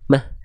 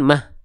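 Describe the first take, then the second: First: The final h breath flows out clearly. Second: The final h breath is faint and cut short. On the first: The speaker calls it right. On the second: The speaker calls it wrong.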